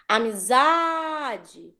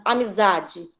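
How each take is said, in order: First: "amizade" with a very long drawn-out ZA; "amizade" slowly called out, lingering on ZA; calling-out AMIZADE. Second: Said in the usual way. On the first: Shown as a demonstration. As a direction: stretch the ZA in "amizade" as if calling someone. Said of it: "como se estivessem chamando uma pessoa". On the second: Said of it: "chamarem a palavra como se estivessem chamando".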